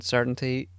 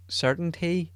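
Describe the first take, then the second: First: Said in the usual way. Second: "certainty" echoed much higher in pitch; lifted, pondering echo on "certainty"; musing repeat. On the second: Real, not acted. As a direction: repeat "certainty" high, as if testing the word. Repeats word, notices title pun.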